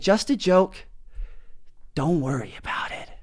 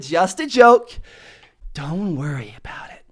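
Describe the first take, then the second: First: Dropping to a hush on the second half; lowered tone. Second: Hushed, breathy second half; calm him with a near-whisper; lowered tone. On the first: Reassuring a stranger about the joke, hushed voice. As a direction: soften down to reassure him. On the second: Telling the customer it was a joke, whispering. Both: Retold or imitated. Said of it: "I lowered my tone".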